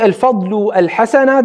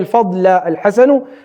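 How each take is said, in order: First: The first name ends in u, the second in a. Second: The first name ends in a, the second in u. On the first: "If I say al-fadlu al-hasana, that has a meaning" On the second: "If I say al-fadla al-hasanu, it has a meaning"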